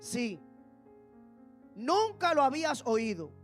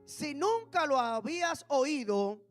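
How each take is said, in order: First: There is a clear pause after sí. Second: It runs straight on with no pause after si. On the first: Yes, you had never heard it. The speaker calls it right. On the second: If you had never heard it. The speaker calls it wrong.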